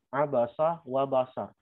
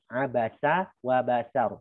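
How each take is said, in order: First: The s sound is heavy and thick. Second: The s sound is light and thin. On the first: The speaker calls it wrong. "Itu kira-kira sin atau soft mendekati soft" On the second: The speaker calls it right.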